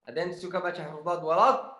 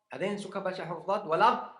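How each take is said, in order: The two takes are said the same way.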